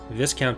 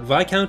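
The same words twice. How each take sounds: First: Viscount is said a non-British way. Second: Viscount is said the British way. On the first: The speaker calls it wrong. "is not" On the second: The speaker calls it right. "is the correct pronunciation"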